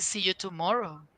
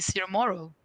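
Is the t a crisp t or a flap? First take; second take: crisp t; flap. First: The t is a crisp, clear t. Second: The t is a soft American flap.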